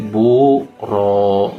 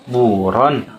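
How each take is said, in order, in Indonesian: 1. Kata ini berakhir dengan vokal panjang, tanpa n. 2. Kata ini berakhir dengan bunyi n. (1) "karena diwakafkan ... maka dibaca menjadi buro" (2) "asalnya kan buron"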